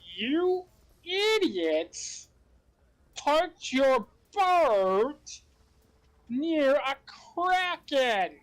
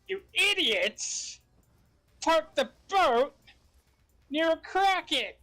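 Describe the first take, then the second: First: It is spoken slowly and deliberately. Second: It is spoken at a normal, quicker pace.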